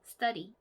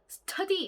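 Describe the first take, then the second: First: The t is tense and unaspirated. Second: The t is strongly aspirated with a puff. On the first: The speaker calls it right. "약간 뜨 발음이에요" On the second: The speaker calls it wrong. "t 발음을 너무 이렇게 트 하지 마시고요"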